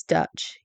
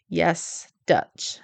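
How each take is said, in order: First: Said in the usual way. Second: A dry, unvoiced "Yes, Dutch" in disbelief; deadpan whisper. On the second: Real, not acted.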